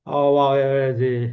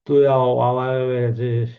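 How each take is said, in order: First: আওয়ায় বেড়েছিস drawn out slowly, a touch more menace; slow down and lean on আওয়ায় বেড়েছিস; film dialogue repeated slower. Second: Film dialogue. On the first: Teacher repeating Manna's threat, slower and heavier. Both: Retold or imitated. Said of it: "মান্নার মুভিতে dialogue গুলো এরকম".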